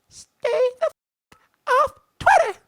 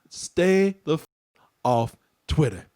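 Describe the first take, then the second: First: It is said in a put-on puppy voice. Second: It is said in his normal voice.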